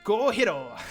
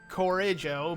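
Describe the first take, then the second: First: The middle consonant is an H sound. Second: The middle consonant is a J sound. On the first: The speaker calls it right. "I'm supposed to pronounce the J like an H" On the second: The speaker calls it wrong. "I used to call it Corrijo"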